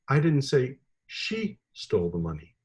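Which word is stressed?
she. The stress is on the word she.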